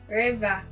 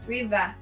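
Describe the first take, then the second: First: It is said in a Cameroonian accent. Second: The same.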